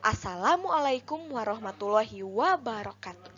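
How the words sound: The words are articulated clearly and distinctly. The speaker calls it right. "vokal artikulasina kedah jelas"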